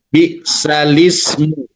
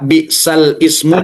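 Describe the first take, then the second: First: The glottal stop is dropped and the words merge. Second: The glottal stop before ismu is kept, separately. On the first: The speaker calls it right. "tapi bi'salismu" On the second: The speaker calls it wrong. "Tidak bi'sal ismu"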